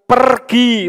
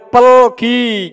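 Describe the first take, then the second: First: The middle consonant is an R sound. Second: The middle consonant is an L sound.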